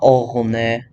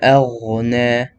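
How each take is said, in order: First: The hamza is pronounced heavy. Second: The hamza is pronounced light. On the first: The speaker calls it wrong. "not aghna" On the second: The speaker calls it right. "even though it's light"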